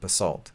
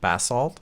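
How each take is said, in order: First: It is said with an American pronunciation. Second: It is said with a British pronunciation. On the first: "here in America, we pronounce it basalt" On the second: "British people pronounce it basalt"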